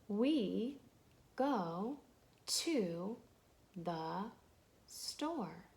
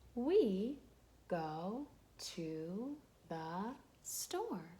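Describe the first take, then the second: First: It is read slowly, word by word. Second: It is read more quickly.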